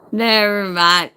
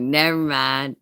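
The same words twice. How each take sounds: First: Louder, higher imitated backing-off; emphatic retold dismissal. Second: Said in the usual way. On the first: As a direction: call it out higher, imitating someone giving up. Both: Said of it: "They're gonna be like".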